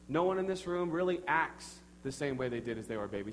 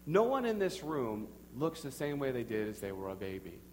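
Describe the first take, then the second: First: "acts" leaned on, with a break after it; stress on acts. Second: "looks" set apart as the contrasted word; stress on looks. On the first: Preacher comparing congregation to babies, stress on "acts". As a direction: hit "acts" to contrast it with appearance. Parallel contrast of acts with looks. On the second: Preacher comparing congregation to babies, stress on "looks". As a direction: lean on "looks" after "this room". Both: Real, not acted.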